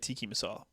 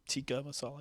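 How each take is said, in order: First: The first word ends with an 'ee' sound. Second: The first word ends with an 'uh' sound. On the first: The speaker calls it wrong. "a lot of people say tiki masala" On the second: The speaker calls it right. "it's tikka"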